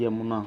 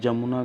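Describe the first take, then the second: First: The word begins with a 'y' sound. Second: The word begins with a 'j' sound. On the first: The speaker calls it right. "यमुना होता है" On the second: The speaker calls it wrong. "जमुना गलत है"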